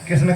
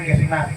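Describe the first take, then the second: First: The name ends on the final consonant sound. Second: The name ends with a long 'aa' vowel. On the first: It names the male deity. The speaker calls it right. "तो आपको कृष्ण कहना है" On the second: It becomes a feminine name. The speaker calls it wrong. "कृष्ण को कृष्णा कह देते"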